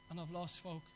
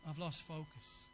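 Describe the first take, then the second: First: Low and soft, a quiet admission; dejected low murmur. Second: Low, soft and slow, as if defeated; dejected low murmur. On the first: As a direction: let the words drop, defeated. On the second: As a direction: sink into a quiet admission of loss. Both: Retold or imitated. Preacher voicing a tempted person.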